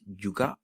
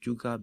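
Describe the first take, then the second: First: The word ends with a stop closure. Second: The word ends on an open vowel.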